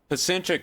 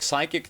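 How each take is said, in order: First: The word begins with a pronounced P sound. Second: The word begins with an S sound, P silent. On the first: The speaker calls it wrong. "I just assumed it didn't have a P at the beginning of it" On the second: The speaker calls it right. "No P. P is not pronounced in it"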